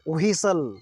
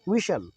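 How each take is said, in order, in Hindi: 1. पहली w ध्वनि के बाद एच की ध्वनि आती है। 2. पहली w ध्वनि के बाद एच की ध्वनि नहीं आती। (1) "व्हीसल नहीं बोलेंगे" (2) "एच नहीं बोलेंगे"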